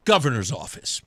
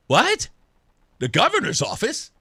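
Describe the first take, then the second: First: Low, matter-of-fact statement; understated official introduction; matter-of-fact answer. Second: Taken aback, asking back; surprised question. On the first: Tim's answer as retold. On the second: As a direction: question it in surprise, ending on a rise. His startled question back at Tim. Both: Retold or imitated.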